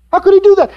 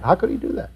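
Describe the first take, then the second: First: Incredulous outcry. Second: Much softer, almost under the breath; hushed disbelief. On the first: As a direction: throw it out in shocked disbelief. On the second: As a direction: let it fall away in quiet dismay. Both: Retold or imitated. Preacher mimics disbelieving churchgoers.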